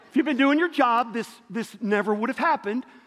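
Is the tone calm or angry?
angry. It is said in a sharper, angrier tone. "Maybe a little different tone"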